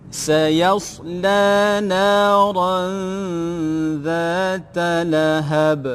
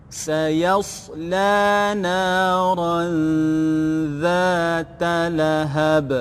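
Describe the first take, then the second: The two takes are said the same way.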